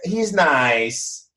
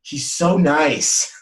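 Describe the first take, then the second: First: It sounds politely lukewarm and unimpressed. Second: It sounds excited and gushing, with a gasp.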